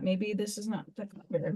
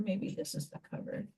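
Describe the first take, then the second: First: Said in the usual way. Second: Fast whisper to herself; a quick whispered guess while crafting. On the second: Real, not acted. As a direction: whisper it under your breath, quickly.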